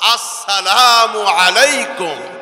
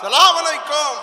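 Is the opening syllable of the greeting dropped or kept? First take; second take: kept; dropped. First: The opening syllable is kept and fully pronounced. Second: The opening syllable is dropped and clipped. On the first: A proper greeting that keeps its meaning as a prayer. The speaker calls it right. "সালামটা শুদ্ধভাবে দিব আমরা" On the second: A careless greeting that distorts its meaning. The speaker calls it wrong. "রাস্তাঘাটে বাজারে সালাম হয়ে যায়"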